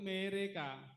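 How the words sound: The e is read the Papuan way. "Jadi semua huruf yang ada huruf E dibaca E bukan E"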